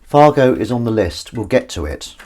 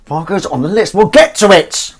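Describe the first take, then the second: First: Said in the usual way. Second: Pitched way up and much louder; high, loud sing-song. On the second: Shown as a demonstration. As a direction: toss it out high and loud, like a cheery promise.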